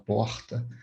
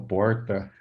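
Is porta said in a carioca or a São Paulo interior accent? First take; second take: carioca; interior. First: Carioca accent with a Rio-style R. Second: Interior São Paulo accent with a heavy R. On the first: The speaker is from Rio de Janeiro. "se for um carioca" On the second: The speaker is from inland São Paulo. "uma pessoa do interior... bem carregado"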